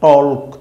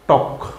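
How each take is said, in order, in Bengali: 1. L ধ্বনিটি K-এর আগে উচ্চারিত হয। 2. L নীরব, সরাসরি K-তে চলে যায। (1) "অনেক রকমের চিন্তা আমরা করি, কিন্তু না" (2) "এই এল এর কোনো উচ্চারণ হবে না"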